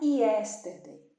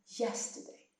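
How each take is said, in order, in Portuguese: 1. A palavra começa com a vogal 'ee' simples. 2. A palavra começa com o som deslizante 'y'. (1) "Não é yesterday" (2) "o som do Y é ia"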